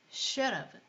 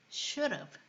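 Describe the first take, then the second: The two takes are said the same way.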